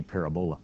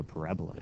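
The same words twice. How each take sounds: First: "parabola" with the stress on the first syllable, PAR-a-bo-la; wrong stress. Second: Said in the usual way. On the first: Shown as a demonstration. Teacher mocks a wrong stress, stressing PAR in "parabola". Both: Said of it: "you put the emphasis on the wrong syllable".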